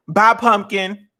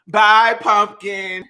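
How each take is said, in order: First: Drawn-out bye. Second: "Bye" stretched very slowly; slower drawn-out bye. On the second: Saying goodbye to the pumpkin, very slow. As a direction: draw "Bye, pumpkin" out even longer. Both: Pretend.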